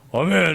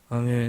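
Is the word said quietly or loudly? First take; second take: loudly; quietly. First: It is said loudly and forcefully. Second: It is said quietly and flatly.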